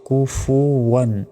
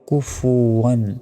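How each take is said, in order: No difference in how they are said.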